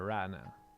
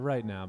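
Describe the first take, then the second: First: It is said in a Southern US accent. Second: It is said in a plain, neutral accent.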